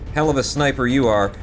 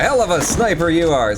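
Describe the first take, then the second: First: It is said in a mocking, sarcastic tone. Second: It is said in a genuinely pleased tone. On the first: The sniper is doing poorly. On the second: The sniper did well.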